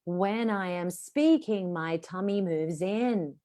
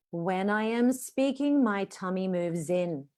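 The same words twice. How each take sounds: First: Slow and smooth with the breath flowing; unhurried demo of airflow. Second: Slow, airy, even delivery; slow breathy teaching line; slow demo sentence. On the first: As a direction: let each word ride the air. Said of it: "say it out loud and hear the airflow". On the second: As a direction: let the air flow out slowly. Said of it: "I'm gonna teach you one sentence". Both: Shown as a demonstration.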